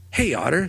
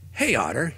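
First: Gruff call to the otter; growled. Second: A mild gruff call; a touch of a growl. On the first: Dog calling to the otter, gruff growl. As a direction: bark it out sharply. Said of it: "Sniffers growled". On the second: Dog calling the otter again, mild growl. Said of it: "he growled". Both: Acted.

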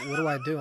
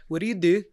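First: Said in the usual way. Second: Lightly attempted Scottish accent. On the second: Scottish woman questioning the comic in a bar, lightly imitated Scottish accent. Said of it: "my best Scottish accent".

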